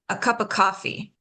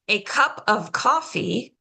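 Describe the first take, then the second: First: A sound is dropped and the words run together. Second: Every word is pronounced fully and separately.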